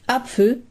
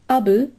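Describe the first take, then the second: First: Standard German, with a pf sound. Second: Palatinate dialect, with a b sound instead.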